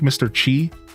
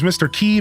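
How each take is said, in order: First: The name is said with a ch sound. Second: The name is said like the word key. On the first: "I've even had somebody call it Chi" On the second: "I've always pronounced it as Mister Key"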